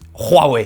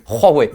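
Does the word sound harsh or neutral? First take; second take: harsh; neutral. First: The word is said with a harsh, mean intonation. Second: The word is said with a plain, neutral intonation. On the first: The speaker calls it wrong. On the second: The speaker calls it right.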